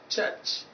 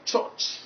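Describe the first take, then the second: First: "church" with an unrounded central vowel, like "chuhch"; correct church vowel. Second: "church" with a rounded O, like "choch"; mistaken church vowel. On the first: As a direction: say "church" with no O sound. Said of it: "is pronounced as church". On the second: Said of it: "and not church". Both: Shown as a demonstration.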